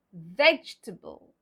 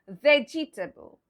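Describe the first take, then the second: First: VEGETABLE slow and low as vej-tuh-bul; silent E. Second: VEGETABLE with the middle E voiced, vej-ih-tuh-bul; four full syllables in VEGETABLE, vej-ih-tuh-bul; spelling pronunciation. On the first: Teacher repeats the correct way, VEGETABLE as vej-tuh-bul. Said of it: "the pronunciation will be". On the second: Teacher repeats the mistake, VEGETABLE as vej-ih-tuh-bul. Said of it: "Well, that's wrong". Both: Shown as a demonstration.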